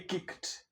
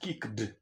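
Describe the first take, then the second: First: The ending is pronounced as a t sound. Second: The ending is not pronounced as a t sound. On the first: The speaker calls it right. "So we say kicked" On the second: The speaker calls it wrong. "and not kicked"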